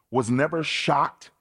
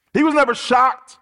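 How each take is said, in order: First: Said in the usual way. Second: NEVER shocked, hit hard and loud; forceful preacher's emphasis; preached louder. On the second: Acted. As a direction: drive "never shocked" home to the congregation. Restates the point with force.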